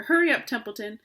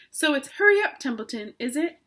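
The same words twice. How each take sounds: First: Said in the usual way. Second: High, loud mocking mimicry; mimicking Wilbur. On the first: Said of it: "said Wilbur". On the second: A narrator's reading. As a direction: parrot the pig with a sneer. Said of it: "He began imitating Wilbur's voice".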